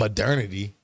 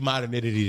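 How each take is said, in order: First: The first part sounds like the word murder. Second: The first part sounds like the word modern. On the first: This is how the word is commonly said. "you say modern, not murder" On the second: This is how the speaker used to say it. "It used to be modernity to me"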